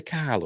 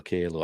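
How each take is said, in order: First: Kahlo said with an open "ah", KAH-lo; "Kahlo" with a long ah in the first syllable; first pronunciation variant. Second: Kahlo said with an "ay", KAY-lo; "Kahlo" with first syllable rhyming with day; second pronunciation variant. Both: Shown as a demonstration. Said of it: "is it Frida Kahlo or Kahlo".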